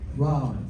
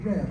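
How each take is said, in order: First: The vowel sounds like the one in 'cot'. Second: The vowel sounds like the one in 'cat'. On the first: The speaker calls it wrong. "No, that's that" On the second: The speaker calls it right. "I like Rab better than Rob"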